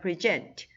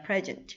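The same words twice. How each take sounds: First: The stress is on the second syllable. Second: The stress is on the first syllable. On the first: It is a verb meaning to give or present. "강세가 이음절에 있기 때문에" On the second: It is a noun or adjective meaning a gift or current. "명사와 형용사로 쓰일 때는 이름절의 강세가 있어서"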